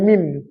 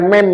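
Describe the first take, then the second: First: The vowel sounds like 'ee'. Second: The vowel sounds like 'eh'. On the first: The speaker calls it right. "tapi mim" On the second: The speaker calls it wrong. "Bukan mem ya"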